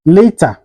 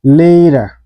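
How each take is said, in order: First: LATER with a clear hard T; T fully pronounced. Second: LATER with a quick D-like tap, "lader"; flapped T. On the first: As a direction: say "later" with a crisp T, no flap. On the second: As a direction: say "later" American style, like "lader". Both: Shown as a demonstration. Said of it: "is pronounced like".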